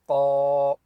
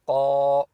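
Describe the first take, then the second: First: The consonant is heavy, made deep in the throat. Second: The consonant is heavy, made deep in the throat.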